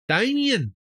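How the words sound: The name is said in a broad Australian accent.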